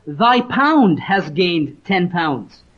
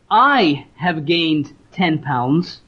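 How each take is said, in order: First: "thy pound" stressed, slow and falling. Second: "I" stressed with a rising tune, said slowly. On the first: Preacher showing the servant's humble words, stress on "thy pound". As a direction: lean on "thy pound" in "thy pound has gained ten pounds". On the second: Preacher showing the boast the servant avoided, stress on "I". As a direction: lean on "I" in "I have gained ten pounds" as the wrong claim. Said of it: "He didn't say". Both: Shown as a demonstration.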